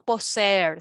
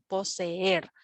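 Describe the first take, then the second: First: The two e vowels merge into one syllable. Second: The two e vowels fall in separate syllables. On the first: The speaker calls it wrong. "No decimos poseer" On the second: The speaker calls it right. "sino poseer"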